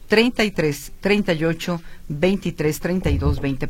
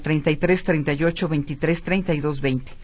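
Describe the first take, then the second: First: The number is read at a slower pace. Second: The number is read at a normal, quicker pace.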